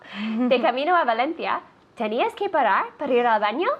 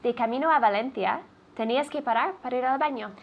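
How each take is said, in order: First: The voice rises at the end. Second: The voice falls flat at the end. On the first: It is a question. The speaker calls it right. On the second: It sounds like a statement. The speaker calls it wrong.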